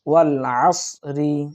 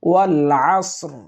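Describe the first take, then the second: First: The phrase ends with a vowel after the r. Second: The phrase ends on a light, stopped r. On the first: The reading continues without stopping. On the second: The reading pauses at this point.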